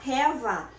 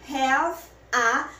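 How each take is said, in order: First: The two words run together as one. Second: The two words are said separately.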